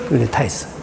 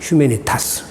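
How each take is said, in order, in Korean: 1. 이 단어는 영어식으로 발음됩니다. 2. 이 단어는 라틴식으로 발음됩니다. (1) "이것은 영어식 발음이고" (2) "라틴어식 발음은"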